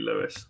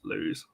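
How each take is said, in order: First: The name sounds like the word 'Lewis'. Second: The name sounds like the word 'lose'. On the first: The speaker calls it right. "It is definitely, uh, definitely Lewes" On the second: The speaker calls it wrong. "not lose"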